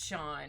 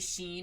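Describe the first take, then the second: First: The name is said with an 'aw' vowel. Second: The name is said with an 'ee' vowel. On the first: The speaker calls it right. "It's Sean" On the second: The speaker calls it wrong. "I sometimes want to say Sheen, I'm like, no, that's not correct"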